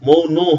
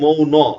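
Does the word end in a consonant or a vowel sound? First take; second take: consonant; vowel. First: The word ends on the final consonant. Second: The word ends with a pronounced final vowel. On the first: The speaker calls it wrong. "মৌন হবে না" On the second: The speaker calls it right. "যেহেতু আমি সসন্ত দিই নাই তার মানে মৌন"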